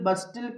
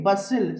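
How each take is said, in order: First: A t sound is pronounced in the middle. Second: The t sound is not pronounced. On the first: The speaker calls it wrong. "ఇలా చదవకూడదు" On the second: The speaker calls it right. "టీ silent"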